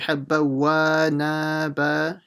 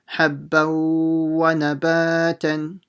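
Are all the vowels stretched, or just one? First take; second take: all; one. First: Every vowel in the phrase is lengthened. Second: Only the ba alif vowel is lengthened. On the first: The speaker calls it wrong. "don't say habba wa naba, stretching everything" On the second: The speaker calls it right. "nothing else should be stretched in between. So like this"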